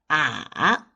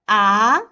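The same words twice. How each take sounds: First: The pitch dips low, then rises. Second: The pitch rises from middle to high. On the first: It sounds hesitant. "The third tone is the falling rising tone" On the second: It sounds like a question. "The second tone is the rising tone"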